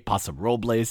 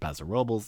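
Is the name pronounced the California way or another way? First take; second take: other way; California way. First: The name is pronounced differently from California usage. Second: The name is pronounced the way Californians say it. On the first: The speaker calls it wrong. "I didn't say Paso Robles" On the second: The speaker calls it right. "Notice I said it right for California"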